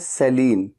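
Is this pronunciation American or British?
American. It is said with an American pronunciation. "American English में इसे कहा जाता है"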